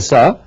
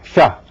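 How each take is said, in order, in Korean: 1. 이 자음은 한국식 일반 s입니다. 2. 혀끝이 입천장에 닿습니다. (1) "S는 우리말로 싸인데" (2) "밑에 점이 찍히면은"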